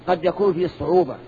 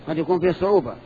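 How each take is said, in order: Both takes have the same delivery.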